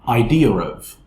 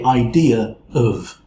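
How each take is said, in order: First: The two words are linked quickly with an r sound. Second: The two words are said without a linking r. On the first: The speaker calls it right. "We want it to be faster, so it becomes idea of" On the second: The speaker calls it wrong. "we don't want to say idea of"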